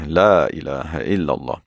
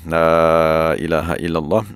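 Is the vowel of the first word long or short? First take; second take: short; long. First: The first vowel is kept short. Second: The first vowel is drawn out long. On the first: It avoids dying before reaching the name of God. "baca dengan dua harakat saja" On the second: It brings a sense of denying all else besides God. "baca dengan panjang"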